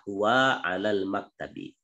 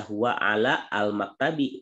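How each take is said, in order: First: "huwa alal maktabi" with the alif silent and ala fused into alal; correct reading. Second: "huwa ala al maktabi" with the al sounded separately as its own syllable; wrong reading. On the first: Teacher giving students the correct linked reading. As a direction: join "alal" smoothly without a hamza. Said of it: "yang benar adalah". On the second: Teacher demonstrating the wrong reading to the students. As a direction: break "ala al" apart, the mistaken way. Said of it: "itu salah dibacanya". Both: Shown as a demonstration.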